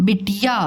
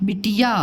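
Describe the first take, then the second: The two takes are said the same way.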